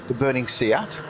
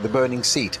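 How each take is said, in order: First: The phrase is said with careful, deliberate enunciation. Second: The phrase is read quickly, without careful enunciation. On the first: It refers to the burning car brand. The speaker calls it right. "It's all in the enunciation" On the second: It sounds like a burning chair. The speaker calls it wrong. "if you read this too quickly"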